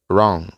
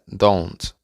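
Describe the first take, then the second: First: The word is said reduced, with sounds dropped. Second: The word is said fully, with its final sound. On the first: "de forma informal se pronuncia" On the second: "se puede pronunciar don't"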